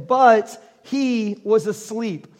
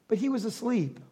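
First: Slow, drawn-out scripture reading; measured scripture read. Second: Dropped to a soft near-whisper; quiet deadpan reveal; hushed aside. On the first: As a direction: read it plainly and slowly. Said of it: "I love how there's, like, a colon there". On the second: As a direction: let it fall away like an afterthought. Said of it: "I read it like that". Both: Shown as a demonstration.

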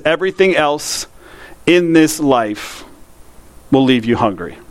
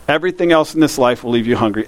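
First: Slow, with long pauses between phrases. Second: Said in the usual way. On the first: Shown as a demonstration. Preacher to congregation, slowly and with pauses.

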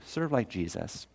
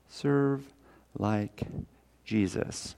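First: Said in the usual way. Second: Serve, like, Jesus each set apart by pauses; word by word: Serve, pause, like, pause, Jesus; pauses between words. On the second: Shown as a demonstration. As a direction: drop each word slowly on its own.

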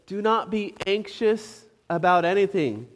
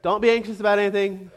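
First: Said in the usual way. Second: Fast, breezy brush-off of the verse; rushed throwaway. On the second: Shown as a demonstration. Preacher mocking a verse cut short, rattled off fast. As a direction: rattle it off like that settles everything. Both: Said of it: "And he just stops there".

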